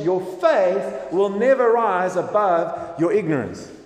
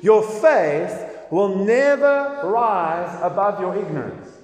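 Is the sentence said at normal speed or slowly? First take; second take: normal speed; slowly. First: It is said at normal speed. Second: It is said more slowly.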